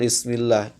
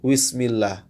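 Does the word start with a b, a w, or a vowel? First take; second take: b; w. First: It begins with a clear b sound. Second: It begins with a w sound. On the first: The speaker calls it right. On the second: The speaker calls it wrong.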